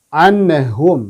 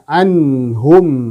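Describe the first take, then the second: First: The n sound bounces with an echoing release. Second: The n sound flows smoothly at moderate length. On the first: The speaker calls it wrong. "terpantul seperti huruf mim" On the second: The speaker calls it right. "Jadi ada sifat tawasutnya"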